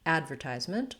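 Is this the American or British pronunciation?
American. It is said in an American accent. "American English"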